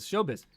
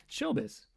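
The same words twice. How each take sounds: First: Said in the usual way. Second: High, soft showbiz echo; a breathy high echo of the word; mock showbiz. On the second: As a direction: toss off "Showbiz" up high and quietly.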